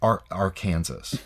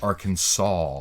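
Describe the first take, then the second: First: The word ends sounding like the name Kansas. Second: The word ends without sounding like Kansas. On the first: The speaker calls it wrong. "it's not pronounced Ar- Arkansas" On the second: The speaker calls it right. "It's pronounced Arkansas"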